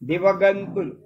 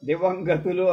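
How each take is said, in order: First: The nasal comes before the final 'tulu'. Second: The nasal comes right after 'diva'. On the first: A misheard form that people repeat until it feels correct. The speaker calls it wrong. "దివగంతులు అయిపోతాయి" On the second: The form it should be. The speaker calls it right. "దివంగతులు అని ఉండాల్సింది"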